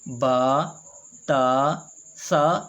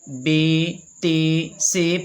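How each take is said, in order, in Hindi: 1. अक्षरों के नाम अरबी ढंग से बोले गए हैं। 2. अक्षरों के नाम उर्दू ढंग से बोले गए हैं। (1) "अरबी लबो लहजे में" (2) "ये ऐसे नहीं पढ़े जाएंगे"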